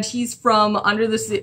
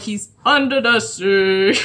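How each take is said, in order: First: Said in the usual way. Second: Sung, joking musical echo; playfully sung. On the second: Pretend. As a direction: croon "under the sea" with long drawn-out words. Breaks into the song title.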